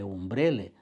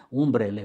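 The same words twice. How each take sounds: First: Umbrele stressed on BRE; second stress. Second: Umbrele stressed on UM, louder; first stress. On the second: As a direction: say umbrele as UM-brele. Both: Shown as a demonstration. Teacher contrasting the two stresses of umbrele. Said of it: "sunt diferite".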